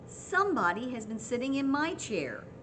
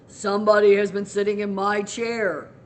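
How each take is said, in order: First: It is said in a medium, middle voice. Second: It is said in a deep, gruff voice.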